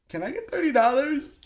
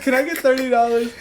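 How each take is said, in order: First: High, sweet begging voice; high wheedling plea to mom; pleading kid voice. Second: High, louder pleading; high loud wheedling plea; begging again. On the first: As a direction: ask for money like a sweet-talking kid. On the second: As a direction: beg for money a second time, louder. Repeats plea, louder, laughing. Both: Retold or imitated.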